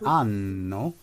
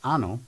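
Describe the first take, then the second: First: The N sound is held long. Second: The N sound is short. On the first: It means a year. The speaker calls it right. "it has two N's" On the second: It means something rude. The speaker calls it wrong. "if you say it with one N"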